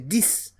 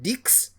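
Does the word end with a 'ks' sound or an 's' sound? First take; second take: s; ks. First: The word ends with an 's' sound. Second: The word ends with a 'ks' sound. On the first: The speaker calls it right. "The X is pronounced as S in this context" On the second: The speaker calls it wrong. "Instead of dix"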